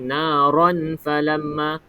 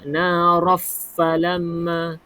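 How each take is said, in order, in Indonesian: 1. Bunyi n diucapkan dengan jelas sebelum f. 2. Bunyi n melebur sepenuhnya ke dalam f. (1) "Kalau naron falamma itu izhar" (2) "Kalau naraf falamma itu idgham"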